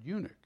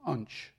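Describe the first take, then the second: First: The word is said with two syllables. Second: The word is squeezed into one syllable. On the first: The speaker calls it right. "He didn't know how to pronounce the word eunuch" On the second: The speaker calls it wrong. "he was referring to the Ethiopian unch"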